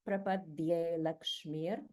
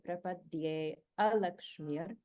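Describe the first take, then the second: First: The vowel before lakshmir is dropped. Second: The vowel before lakshmir is pronounced. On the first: "the a has been dropped because of the rules of sandhi" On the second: "breaking this apart"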